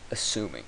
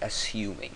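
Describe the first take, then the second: First: It is said in an American accent. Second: It is said in an English accent. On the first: "how you'd pronounce this with an American accent" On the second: "with an English accent, it would be"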